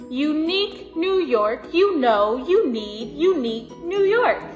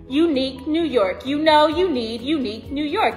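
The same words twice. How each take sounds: First: It is said at a normal pace. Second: It is said at a faster pace.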